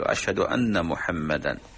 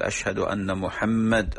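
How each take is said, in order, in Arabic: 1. ينتهي الاسم بصوت أنفي 'an'. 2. ينتهي الاسم بدال ساكنة 'd'.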